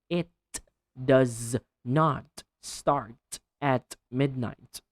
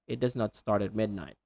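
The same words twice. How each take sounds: First: The final sounds of words are strongly exaggerated. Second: The final sounds of words are said naturally. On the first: This is practice done alone. "So exaggerate, overdo it when practicing" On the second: This is real conversation with someone. "try to avoid exaggerating too much"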